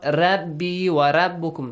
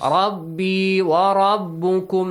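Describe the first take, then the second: First: The R sounds light and thin. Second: The R sounds heavy and full. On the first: The speaker calls it wrong. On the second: The speaker calls it right. "Ra, heavy sound"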